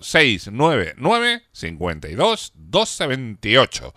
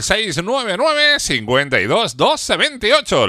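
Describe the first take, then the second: First: The number is said more slowly. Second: The number is said at normal speed.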